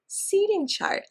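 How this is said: The stress falls on the first word. The speaker calls it right. "stressed on the first part"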